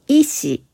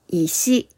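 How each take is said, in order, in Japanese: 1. 最初は高く、そのあと下がります。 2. 最初は低く、そのあと上がります。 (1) "一つ目の医師は医者という意味。" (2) "二つ目の石は道などに転がっている硬い塊のことです。"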